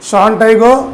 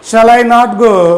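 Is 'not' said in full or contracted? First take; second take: contracted; full. First: The word not is contracted onto shall. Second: The word not is said in full.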